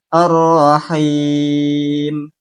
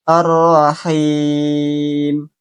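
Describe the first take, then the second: Both takes have the same delivery.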